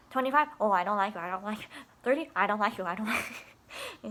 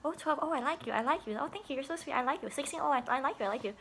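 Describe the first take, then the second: First: Louder, mock-stern teasing refusal; mock rejection. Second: Higher, sing-song teasing approval; playful approval. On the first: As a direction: reject them with fake sternness. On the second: Pretend. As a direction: coo it like a teasing compliment. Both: Joking age-guess game with kids.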